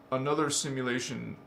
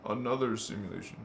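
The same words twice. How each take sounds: First: Said in the usual way. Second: Lower, softer, faster like an echo trailing off; fading echo. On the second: Shown as a demonstration. Explaining nested worlds, echoing the phrase fading away. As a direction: let it drift away like an echo.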